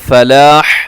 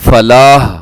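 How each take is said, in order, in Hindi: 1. अंतिम 'h' एक कठोर, गले से निकलने वाली ध्वनि है। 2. अंतिम 'h' एक मुलायम, सादी साँस जैसी ध्वनि है।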